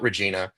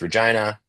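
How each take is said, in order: First: Regina is said in a non-local way. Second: Regina is said the way locals say it. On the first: The speaker calls it wrong. "It's not Regina" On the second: The speaker calls it right. "That's how they pronounce it"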